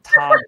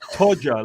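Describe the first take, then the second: First: The first vowel is open and unrounded. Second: The first vowel is short and rounded. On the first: The speaker calls it wrong. "no Americans ever do the O properly" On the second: The speaker calls it right. "like round"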